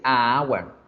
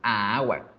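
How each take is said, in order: First: The article is a bare vowel before hour. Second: The article is a bare vowel before hour.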